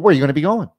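It is asked in a pushy, pressuring tone. The question pushes the customer to commit. The speaker calls it wrong. "like constant pressure in their face ... the tonality there is way off"

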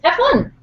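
It is said in a put-on, imitated voice.

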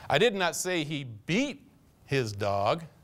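The word 'beat' is stressed. He mistreated the dog in other ways, but not by beating it. "Kicked him around once in a while, but never saw him beat him"

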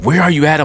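The voice sounds angry and accusing. The caller means to punish him for doing wrong. The speaker calls it wrong. "I'm going to get you. You did something wrong, right?"

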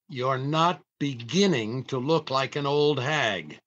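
The word 'beginning' carries strong emphasis.

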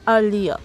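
A British accent, with the r dropped. "British প্রোনাউন্সিয়েশনের কথা বলা হয় তাহলে ইটস আর্লিয়ার"

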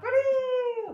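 It is said with an excited, lively inflection. The dog is released to do what it wants. The speaker calls it wrong. "that's gonna have that voice inflection of that's where we go break"

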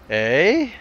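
The pitch goes up on the word. "raise your voice, like"

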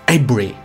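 The name is said with a native English accent. The speaker calls it right. "allí los ingleses dicen como Avebury"

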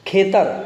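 The word begins with an aspirated kh sound. "ખનો છ અને અથવા તો શ ઉચ્ચાર થાય છે"

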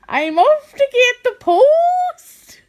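It is said in an attempted Geordie accent. "I'm off to get the post in Geordie"

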